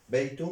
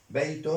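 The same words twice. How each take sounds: First: "بيت" said baytu, without final n; single damma ending. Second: "بيت" said baytun, with a final n; tanwin ending. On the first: Teacher contrasting endings for learners, "بيت" pronounced baytu. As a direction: end "بيت" on a short -u. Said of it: "ضمة واحدة". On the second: Teacher contrasting endings for learners, "بيت" pronounced baytun. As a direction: end "بيت" on a clear -un. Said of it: "ضمتان". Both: Shown as a demonstration.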